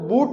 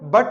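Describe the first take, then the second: First: The vowel is a long 'oo' sound. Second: The vowel is a short 'uh' sound. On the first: The speaker calls it wrong. "अब इसको बूट नहीं बोलेंगे" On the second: The speaker calls it right. "इसको बट बोलेंगे"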